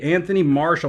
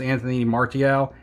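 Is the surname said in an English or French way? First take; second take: English; French. First: The surname sounds like the English word marshal. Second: The surname is given a French-style pronunciation. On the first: The speaker calls it wrong. "I think I've been pronouncing it wrong" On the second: The speaker calls it right. "It's it's French"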